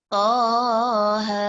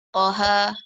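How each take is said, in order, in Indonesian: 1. Kedua vokal dibaca panjang, masing-masing dua ketukan. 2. Kedua vokal dibaca pendek, tidak ditahan. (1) "gitu dua" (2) "Tak boleh kita baca pendek. Salah"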